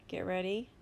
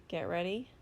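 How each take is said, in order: The two takes are said the same way.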